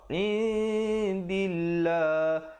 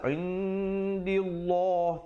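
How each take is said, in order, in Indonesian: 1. L dalam Allah itu ringan dan tipis. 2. L dalam Allah itu berat dan tebal. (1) "lafzu jalalah di sini dibacakan nipis" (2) "jangan pula kita baca tebal. ... tak betul"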